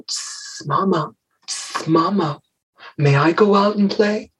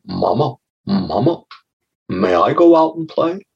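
First: Put-on higher, softer snake child with long hisses; hissing little snake. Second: A hint of an eager child asking mama; lightly voiced little frog. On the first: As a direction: hiss between the words like a pleading little snake. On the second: Little frog asks his mother.

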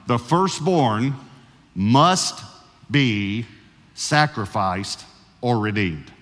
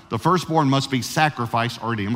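First: "must" lifted and pressed, the rest slow for note-takers; slow dictation. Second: Said in the usual way. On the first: Shown as a demonstration. Pastor gives his first point to note-taking listeners, slowly dictated. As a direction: spell the point out slowly so it can be written down. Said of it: "leave it up long enough for you to be able to". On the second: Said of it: "according to Scripture".

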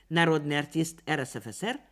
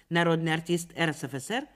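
The two takes are said the same way.

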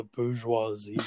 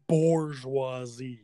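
First: Bourgeoisie said with no R in the first syllable; usual pronunciation. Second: Bourgeoisie drawn out slowly as "borzh-wah-zee"; slow, pointed bourgeoisie with a wrong "bor" start; mocked mispronunciation. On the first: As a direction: say bourgeoisie as "boozh-wah-zee". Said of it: "It is one hundred percent not". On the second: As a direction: stretch bourgeoisie, putting an R in the first syllable. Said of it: "unequivocally not". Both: Shown as a demonstration.

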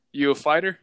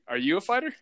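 First: Louder, higher question in mock Russian accent. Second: Questioning. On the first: Driver sizing up his passenger, Russian accent. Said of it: "it's a Russian accent". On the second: Retold or imitated. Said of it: "I was like".

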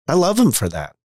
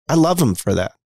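First: Him said highest and strongest; stress on him. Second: Love said highest and strongest; stress on love. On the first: Son about his father, stress on him. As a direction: lean on the word him, the others lighter. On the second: Son about his father, stress on love. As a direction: lean on the word love, then let it fall. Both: Shown as a demonstration.

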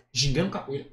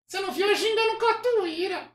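First: Said in the usual way. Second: Very high puppet voice; Kleber. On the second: Acted. Puppet boasting to his ventriloquist, high puppet voice. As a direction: boast as a squeaky dummy. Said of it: "acha uma voz que pareça com o boneco".

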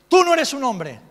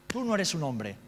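First: Tú no eres un hombre bellowed much higher and louder; furious father. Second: Said in the usual way. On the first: Retold or imitated. Father shaming his son before other kids, yelling Tú no eres un hombre. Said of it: "como buen macho ibérico". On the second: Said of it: "repeated in his own voice".

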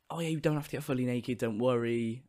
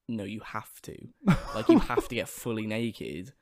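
First: Soft, easygoing retold reassurance; casual reassurance. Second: Slow, measured retold insistence; adamant. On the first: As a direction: lightly imitate staff putting someone at ease. Retells staff reassuring him at sign-up. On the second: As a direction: lay down the rule firmly, with a laugh. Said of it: "they were very, very adamant".

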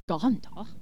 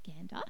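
First: "gander" drawn out with a long ah, like "gahnder"; posh gander. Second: "gander" with a short a, as in cat. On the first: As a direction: stretch "gander" slowly into a posh ah. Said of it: "like, uh, like posh". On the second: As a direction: say "gander" with the a of "hand". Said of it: "it's called gander". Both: Shown as a demonstration.

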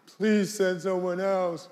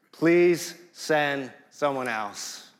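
First: Put-on higher, whiny teenager voice; teenage whine. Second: Slow, careful and polite request; polite plea. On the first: Moses whining at God like a teenager, higher and slow. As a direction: whine it like a sulky teen. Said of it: "letting out one big whine". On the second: Retold or imitated. Moses politely asking God to send someone else. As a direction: ask very politely, slowly. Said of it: "he says it so politely".

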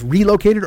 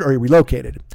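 First: "relocated" with the punch on RE; RE-located, first syllable stressed. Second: "relocated" with the punch on LO; re-LO-cated, stressed on the loc. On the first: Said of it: "Where do you put that accent". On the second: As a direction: lean on the middle syllable, LOC, in "relocated". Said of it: "like a re or a loc". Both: Shown as a demonstration.

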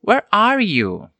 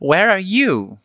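First: Slow question with ARE high, falling through YOU; drawn-out "where ARE you", falling at the end; first intonation. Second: "where are YOU", with the last word punched high and dropping; alternative intonation. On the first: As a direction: lift ARE, then glide down on YOU. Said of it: "Ou então, você pode usar essa entonação". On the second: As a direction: stress on YOU, high then falling. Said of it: "você pode usar essa entonação". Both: Shown as a demonstration.

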